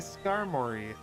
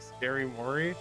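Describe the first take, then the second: First: The name begins with a short 'skar' sound. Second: The name begins with a sound like 'scary'. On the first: "I say Skarmory" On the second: "I do not say it like Scary Mori"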